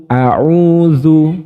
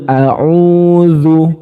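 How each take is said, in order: No difference in how they are said.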